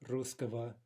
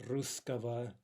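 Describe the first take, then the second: The two takes are said the same way.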